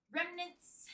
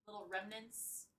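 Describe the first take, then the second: First: Sudden higher, aggressive repeat. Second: Said in the usual way. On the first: Pretend. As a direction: punch the word out high, mock-aggressive. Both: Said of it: "That was aggressive".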